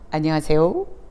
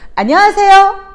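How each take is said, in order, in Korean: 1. 이 인사는 낮은 음으로 말해요. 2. 이 인사는 높은 음으로 말해요. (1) "도" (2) "미보다는 안녕하세요. 쏘리 난 거예요"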